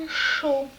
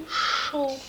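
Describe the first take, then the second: No difference in how they are said.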